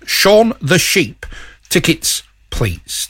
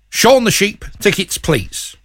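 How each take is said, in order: First: It is said slowly. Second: It is said at a normal speed.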